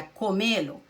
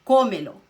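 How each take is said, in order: First: "comelo" stressed on the middle syllable, co-MÉ-lo. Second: "Comelo" with a loud first syllable, CÓ-melo; stress on CO. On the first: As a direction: lean on the ME in "comelo". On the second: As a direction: punch the CO in "Comelo". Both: Shown as a demonstration. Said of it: "Aqui a sílaba tônica é co".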